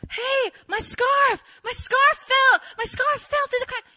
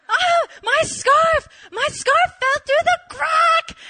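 First: High, loud, urgent calling; panicked yelling. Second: Very high, loud and slow, half laughing; wailing laughing yell. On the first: Calling her friend about the scarf, high panicked yelling. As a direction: blurt the disaster at full volume. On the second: Repeating the news to her friend, slow laughing wail. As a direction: wail it out, cracking up. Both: Retold or imitated.

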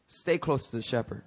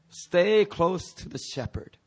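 First: Said in the usual way. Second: "Stay close to the shepherd" slowed and lifted; emphatic repeat. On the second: Shown as a demonstration. Preacher repeating step three for the congregation, "Stay" slow and emphatic.

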